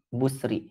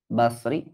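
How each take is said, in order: First: The first vowel is a rounded 'u'. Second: The first vowel is an open 'a'. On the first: This reading is also heard. "Walau yusma'ud dham" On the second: This is the most eloquent reading. "yang afsah itu dengan fathah Al-Basri"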